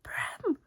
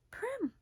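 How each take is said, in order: First: Breathless, voiceless strangled cry; a gone voice croaking the name. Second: High, cracking cry of a name; a desperate voice that breaks high; strangled voice. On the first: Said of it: "her voice sounds so gone". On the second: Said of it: "me trying to imitate how Jennifer Lawrence says it". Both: Retold or imitated.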